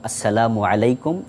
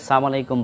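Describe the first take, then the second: First: The l sound in salam is clearly pronounced. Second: The l sound in salam is dropped. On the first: It wishes peace upon the listener. The speaker calls it right. "এভাবেই বলা উচিত" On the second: It wishes death upon the listener. The speaker calls it wrong. "লামটাকে বিলোপ করে"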